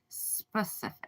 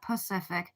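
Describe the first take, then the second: First: The word begins with the s sound. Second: The word begins without the s sound. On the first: The speaker calls it right. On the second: The speaker calls it wrong. "not Pacific"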